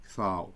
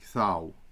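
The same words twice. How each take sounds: First: The t is a soft breathy sound. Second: The t is a soft breathy sound.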